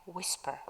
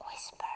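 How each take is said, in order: First: Said in the usual way. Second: Whispered. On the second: Shown as a demonstration. Teacher repeats the vocabulary word for students, whispered. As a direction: WHISPER said in a real whisper.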